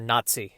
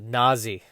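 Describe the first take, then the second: First: The middle consonant has a hard t sound. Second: The middle consonant is soft, without a hard t. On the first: The speaker calls it right. "the hard t sound needs to be in there" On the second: The speaker calls it wrong. "the British pronounced it Nazi"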